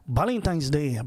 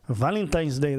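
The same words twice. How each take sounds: First: The first word begins with a B sound. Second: The first word begins with a V sound. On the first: "They go Valentine's Day" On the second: "they won't say Valentine's Day"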